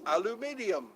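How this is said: It is said in the formal, non-American way. "The correct, correct pronunciation is aluminium"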